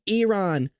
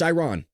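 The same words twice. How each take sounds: First: Iran is said in a non-American way. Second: Iran is said in the American way. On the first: This is the pronunciation others insist on. "I've been told it's called Iran" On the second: This is how people in America say it. "That's how we say it in America"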